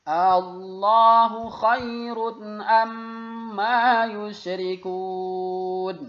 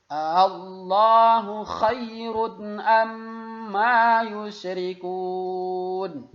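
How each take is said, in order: Both takes have the same delivery.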